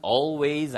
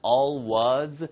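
First: "always" with a full final "ways"; careful "always" ending like "ways"; full pronunciation of always. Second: "always" with a weakened second vowel; casual "always", "ways" reduced to "wuz"; reduced pronunciation of always. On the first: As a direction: say "always" as all-ways, second vowel clear. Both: Shown as a demonstration. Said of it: "발음은 always 아니면 always 다 가능합니다".

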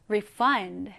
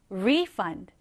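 First: "refund" as re-FUND, weight on fund; light re, strong FUND in "refund"; stress on second syllable. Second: "refund" as RE-fund, weight on re; strong RE, lighter fund in "refund"; stress on first syllable. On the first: Teacher contrasting the verb "refund", stressed on the last syllable. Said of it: "환불하다라는 의미일 때는". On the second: Teacher contrasting the noun "refund", stressed on the first syllable. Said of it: "환불일 때는". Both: Shown as a demonstration.

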